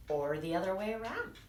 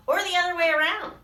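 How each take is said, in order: First: Calm mother. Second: High, louder, quick eager reply; excited little monster; eager child. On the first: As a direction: answer gently like a mother. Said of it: "said Mother Monster". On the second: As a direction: blurt it out happily. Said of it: "said Little Monster". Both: Acted.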